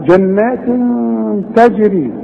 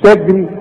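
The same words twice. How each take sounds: First: Higher chant, bounced j in تجري; qalqalah on ج. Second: تجري with the ج closed straight into the r; wrong, no qalqalah. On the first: Teacher showing there is qalqalah, echoing j in تجري. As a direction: release the ج of تجري before the r. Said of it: "ها، في قلقلة". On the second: Teacher showing what not to say, unbounced ج in تجري. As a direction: say تجري flatly joined, no bounce on the consonant. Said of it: "مش تجري". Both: Shown as a demonstration.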